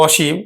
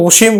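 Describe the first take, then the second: First: অসীম as "aw-sheem"; open initial vowel. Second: অসীম as "o-sheem", the name; closed initial o. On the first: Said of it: "অ এর মতে উচ্চারিত হবে". (অসীম-এর অ বিবৃত উচ্চারণ) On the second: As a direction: round the first vowel of অসীম to o. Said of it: "তখন কিন্তু সংবৃত উচ্চারণ হবে". (অসীম-কে "ওশিম" উচ্চারণ) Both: Shown as a demonstration.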